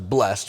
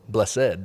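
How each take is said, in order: First: The word is said as one syllable. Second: The word is said as two syllables. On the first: "which is one syllable" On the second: "which is two syllables"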